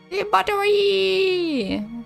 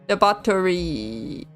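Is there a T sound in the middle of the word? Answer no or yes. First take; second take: no; yes. First: The middle consonant has no T sound. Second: The middle consonant is said with a T sound.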